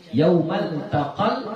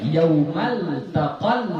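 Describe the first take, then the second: No difference in how they are said.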